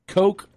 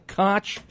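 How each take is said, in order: First: It ends in a k sound, rhyming with joke. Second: It ends in a throaty ch sound. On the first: "can be pronounced coke" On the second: "or koch"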